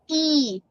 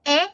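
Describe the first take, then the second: First: The vowel is said as a long sound. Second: The vowel is said as a short sound.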